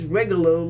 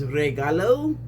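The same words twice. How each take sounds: First: It is said sounding like juggalo. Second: It is said not sounding like juggalo. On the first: The speaker calls it wrong. "I don't think it's regalo like juggalo" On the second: The speaker calls it right. "I don't know if that pronunciation is right"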